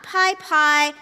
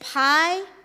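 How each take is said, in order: First: It is said as pie-pie. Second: It is said as pie-pee-eye. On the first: The speaker calls it wrong. "not pie pie" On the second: The speaker calls it right. "It is pi, P I"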